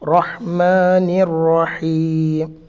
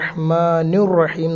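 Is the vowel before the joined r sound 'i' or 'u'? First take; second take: i; u. First: The vowel before the joined r is i. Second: The vowel before the joined r is u. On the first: The speaker calls it right. "അത് രണ്ടും കെസറാണ്" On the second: The speaker calls it wrong. "ചില കുട്ടികൾ ഓതുമ്പോൾ റഹ്മാനുർ റഹീം എന്ന് ഓതുന്നുണ്ട്"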